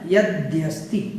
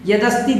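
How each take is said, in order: First: The 'd' is joined to a 'y' sound. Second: The 'd' is followed directly by 'a', no 'y'. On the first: The speaker calls it right. "दा और या यहाँ पर मिला हुआ है" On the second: The speaker calls it wrong. "यदस्ति बोल देते हैं कुछ लोग, वो बिल्कुल गलत है"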